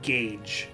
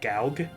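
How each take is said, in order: First: The vowel is a long A, like 'gage'. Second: The vowel is not a long A sound. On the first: The speaker calls it right. "the word gauge" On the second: The speaker calls it wrong. "I would always just like think in my mind gaug"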